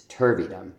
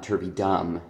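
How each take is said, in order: First: Turvydom stressed only on TUR; stress on first syllable. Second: Turvydom with extra stress on the last syllable DOM; wrong double stress. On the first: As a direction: hit TUR in "turvydom", let "vydom" fall away unstressed. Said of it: "it's turvydom". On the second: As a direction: hit both TUR and DOM in "turvydom". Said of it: "the word is not turvydom". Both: Shown as a demonstration.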